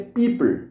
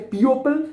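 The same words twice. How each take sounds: First: People said "PEE-pull", the o silent; right people. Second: People said "pee-OH-pull", the o sounded; spelling-pronounced people with the o; wrong people. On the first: Teacher modelling the right people, pee-pull. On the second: Teacher showing the wrong way to say people, pee-oh-pull. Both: Shown as a demonstration. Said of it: "We say people".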